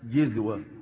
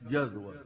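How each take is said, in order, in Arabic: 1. المقطع الأول فيه الحركة i. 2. المقطع الأول فيه الحركة a. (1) "وبالكسر" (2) "بالفتح"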